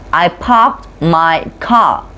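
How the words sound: The R sounds are dropped. This is how New Englanders say it. "they don't pronounce R sound"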